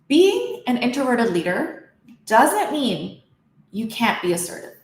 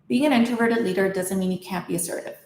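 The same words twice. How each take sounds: First: Some words are drawn out and lengthened. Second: All words are spoken at normal length. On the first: "Now let's stretch out some words"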